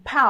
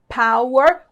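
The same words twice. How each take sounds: First: The second syllable is said very weakly. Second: Both syllables are said clearly and separately. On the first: "bem fraquinha a segunda sílaba" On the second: "Com essas duas sílabas bem separadas"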